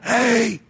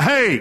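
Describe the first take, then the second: First: It is a weak, hoarse, damaged cry. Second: It is a clear, strong, healthy shout.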